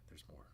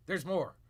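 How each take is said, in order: First: Soft, despairing whisper; dreading the rest of the clip. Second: Said in the usual way. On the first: Real, not acted. Streamer warning viewers the clip goes on, whispered. Whisper then normal repeat.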